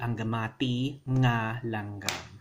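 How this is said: There is a pause in the middle of the phrase.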